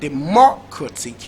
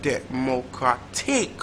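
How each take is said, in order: First: The stress is on the second syllable. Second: The stress is on the fourth syllable.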